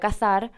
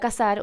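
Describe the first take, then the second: First: The middle consonant is a th sound. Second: The middle consonant is a plain s sound. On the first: The speaker is going hunting. "saben que no es así, que me voy con mi rifle" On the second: The speaker is going to get married. "ustedes saben que voy a contraer matrimonio"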